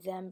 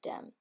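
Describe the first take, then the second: First: The word begins with a soft th sound. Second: The word begins with a hard d sound.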